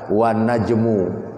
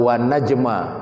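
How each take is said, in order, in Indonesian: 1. Kata terakhir berakhir dengan vokal u. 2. Kata terakhir berakhir dengan vokal a.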